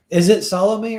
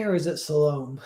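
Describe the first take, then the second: First: Salome said SAL-oh-may, ending in may; Salome in three syllables. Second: Salome said suh-LOME, rhyming with home; Salome in two syllables. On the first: Streamer asks chat how the name goes, three-syllable Salome. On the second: Streamer offers chat the other option, two-syllable Salome. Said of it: "how to pronounce Salome". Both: Shown as a demonstration.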